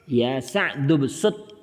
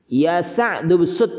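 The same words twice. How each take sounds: First: Said in the usual way. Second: "Ya Sa'du bsut" called out louder and slowly; model answer read out. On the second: Shown as a demonstration. Teacher reads the drill answer aloud to students. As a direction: call the answer out firmly and slowly to the class. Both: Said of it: "Seperti itu".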